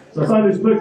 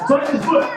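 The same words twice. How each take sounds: First: Said in the usual way. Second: High-pitched yell over engine noise; retold yell. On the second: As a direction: yell it as a jump instructor. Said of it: "he yells at me".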